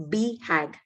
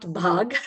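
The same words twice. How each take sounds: First: B hag as two words, "bee" then "hag"; right pronunciation. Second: Bhag as one syllable, like Hindi "bhaag"; wrong pronunciation. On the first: Host teaching participants how this word is pronounced, B hag as "bee-hag". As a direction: say B hag with a separate long "bee" before "hag". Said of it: "The pronunciation of this word is". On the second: Host warning it's not the Hindi word, bhag run together as "bhaag". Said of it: "it's not bhag, like in Hindi word". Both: Shown as a demonstration.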